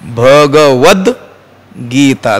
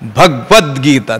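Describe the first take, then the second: First: The first 'g' is full, with its vowel. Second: The first 'g' is clipped, with no vowel. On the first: The speaker calls it right. "मोडायचा नाही त्याचा" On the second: The speaker calls it wrong. "आपण काय म्हणतो? ... तो गकार सुद्धा ... अर्धा पाय मोडून टाकतो"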